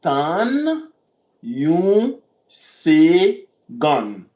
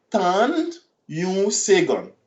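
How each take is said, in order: First: Tan yon segon stretched very slowly. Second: Said in the usual way. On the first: Shown as a demonstration.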